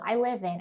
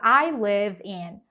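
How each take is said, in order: First: The words run together in one linked chunk. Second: The words are said separately, without linking. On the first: "Não, I live in. ... Isso traz muita agilidade" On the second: "não fique esperando que ele vai falar I live in"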